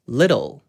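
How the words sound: American accent, the t slides by quickly. "미국식으로는 little, little 이라고 뭔가 후루룩 넘어가지만"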